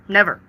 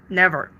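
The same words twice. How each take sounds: The two takes are said the same way.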